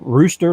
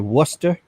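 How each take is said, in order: First: The word begins with an R sound. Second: The word begins with a W sound.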